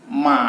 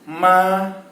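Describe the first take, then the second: First: The pitch falls and then rises. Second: The pitch stays high and level. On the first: It means horse. "nada ketiga bisa kita lihat dia turun kemudian naik" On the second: It means mother. "Nada pertama yaitu nada datar"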